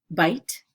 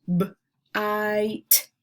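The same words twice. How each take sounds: First: Said in the usual way. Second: "B-, ite" with a long, held i; roller-coaster word. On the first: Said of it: "some long vowel sounds". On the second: Shown as a demonstration. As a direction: separate b, then stretch the vowel of "bite". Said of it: "putting an emphasis on the middle".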